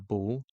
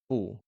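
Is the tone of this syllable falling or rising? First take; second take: rising; falling. First: The syllable is said with a rising tone. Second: The syllable is said with a falling tone. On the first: "you're going to change it to bu" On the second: "has a falling tone, just like bu"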